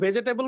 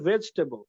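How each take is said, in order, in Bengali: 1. এটা চার দলে উচ্চারিত হয়। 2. এটা তিন দলে উচ্চারিত হয়। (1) "ভুল।" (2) "এটা উচ্চারণটা হচ্ছে ভেজটেবল।"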